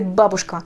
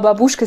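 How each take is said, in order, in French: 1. L'accent est sur la première syllabe. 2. L'accent est sur la dernière syllabe. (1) "Toujours l'accent doit être sur la première syllabe" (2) "en mettant l'accent toujours sur la dernière syllabe"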